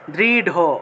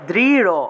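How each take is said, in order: First: The last consonant is an aspirated d. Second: The last consonant is a flapped r. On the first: This is the Sanskrit pronunciation. "কিন্তু সংস্কৃত উচ্চারণ করতে হবে" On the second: This is the Bengali pronunciation. "বাংলায় বললে"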